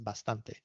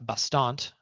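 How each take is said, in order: First: It is said with a native Spanish pronunciation. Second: It is said with an English-speaking pronunciation. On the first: The speaker calls it right. "the word for enough is bastante" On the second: The speaker calls it wrong. "You're not learning that as uh"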